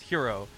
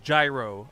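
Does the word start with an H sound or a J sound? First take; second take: H sound; J sound. First: The word starts with a breathy H sound. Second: The word starts with a hard J sound. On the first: The speaker calls it wrong. "It should not be pronounced hero" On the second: The speaker calls it right. "I know G Y R O is gyro"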